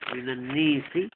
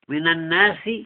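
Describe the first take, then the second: First: The long vowel leans toward an e sound. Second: The long vowel is an open a sound.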